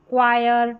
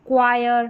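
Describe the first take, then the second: No difference in how they are said.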